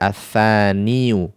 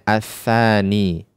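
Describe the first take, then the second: First: The word ends with an added 'yu' sound. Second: The word ends on a long 'ee' sound. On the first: The speaker calls it wrong. "tidak kita baca as-tsaniyu" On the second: The speaker calls it right. "mereka membacanya as-tsani"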